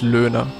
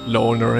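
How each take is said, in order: First: The name is said with German pronunciation. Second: The name is said with English pronunciation. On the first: "That would be the German kind of pronunciation" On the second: "in like an English way of speaking it"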